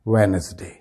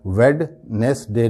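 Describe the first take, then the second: First: "وینسڈے" as lower, joined wen-es-day; correct pronunciation. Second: "ویڈنسڈے" broken into wed-nes-day; wrong pronunciation. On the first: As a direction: say "وینسڈے" with the first D silent. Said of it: "اس کا صحیح pronunciation کیا ہوگا؟". ("وینسڈے" میں پہلی ڈی خاموش) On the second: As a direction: sound the D in "ویڈنسڈے", syllable by syllable. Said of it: "ویڈنسڈے نہیں ہوگا". ("ویڈنسڈے" کو "ویڈ نیس ڈے") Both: Shown as a demonstration.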